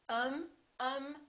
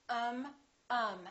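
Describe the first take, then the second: No difference in how they are said.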